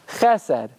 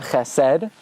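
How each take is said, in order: First: The stress is on the first syllable. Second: The stress is on the last syllable. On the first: The speaker calls it right. "you emphasize the first syllable" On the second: The speaker calls it wrong. "Not chesed"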